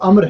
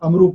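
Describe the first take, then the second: First: The name ends on a consonant cluster. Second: The name ends with an added 'u' vowel. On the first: The speaker calls it right. "बल्कि वो अम्र है" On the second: The speaker calls it wrong. "ये गलत है अमरू पढ़ना"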